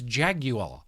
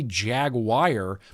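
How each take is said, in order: First: Jaguar is said with a British pronunciation. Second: Jaguar is said with an American pronunciation. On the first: This is the pronunciation the speaker believes is correct. The speaker calls it right. "but I think it's Jaguar. I heard a British person say Jaguar" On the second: This is how the speaker normally says it. The speaker calls it wrong. "I say Jaguar"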